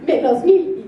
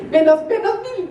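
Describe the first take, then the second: First: Said in the usual way. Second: Laughing deduction. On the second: Retold or imitated. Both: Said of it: "sentí que esos puntos".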